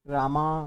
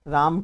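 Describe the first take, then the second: First: The word ends with an added 'a' vowel. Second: The word ends on the consonant 'm'.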